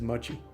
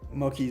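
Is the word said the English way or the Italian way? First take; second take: English; Italian. First: The word is pronounced the English way. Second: The word is pronounced the Italian way. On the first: "I guess it's mochi" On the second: "is the Italian pronunciation"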